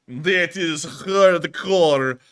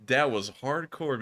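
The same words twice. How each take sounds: First: Put-on very slow, drawn-out "That is hardcore" in a thick Russian accent; Russian accent tail. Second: Said in the usual way. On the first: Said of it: "with that thick Russian accent". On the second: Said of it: "own voice after the bit".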